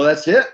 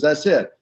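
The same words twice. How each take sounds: First: Rising tune on "it", asked in disbelief; surprised question. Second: Falling tune on "it", closed and final; flat answer. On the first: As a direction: lift "That's it?" up at the end like a doubtful question. Asking if that is all. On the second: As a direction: drop "That's it." down firmly as a done deal. Crockett confirms flatly. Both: Retold or imitated.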